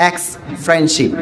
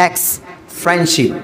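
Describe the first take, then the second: The two takes are said the same way.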